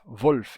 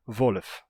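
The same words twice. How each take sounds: First: "Wolf" em uma sílaba, L e F juntos; pronúncia padrão. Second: "Wolf" said as two syllables, VO-lef; pronúncia hunsriqueana. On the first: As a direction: standard German "Wolf", L running straight into F. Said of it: "os falantes não vão dizer". ("Wolf" sem vogal entre o L e o F) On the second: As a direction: break L and F in "Wolf" with a short vowel. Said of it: "quando bate um L com F". ("Wolf" com vogal entre L e F, "Volef") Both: Shown as a demonstration.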